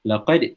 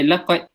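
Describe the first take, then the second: First: The final d is released with a slight bounce. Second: The final d stops dead with no release. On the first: The speaker calls it right. "kena letupkan sikit bunyinya" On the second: The speaker calls it wrong. "tiba-tiba mati"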